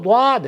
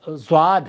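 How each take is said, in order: First: The word begins with a d-like sound. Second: The word begins with a z-like sound. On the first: The speaker calls it right. "ये तो द्वाद है" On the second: This is how it is commonly said locally. The speaker calls it wrong. "हमारे यहाँ तो अरबी ज़ुबान वाले जो ज़्वाद है"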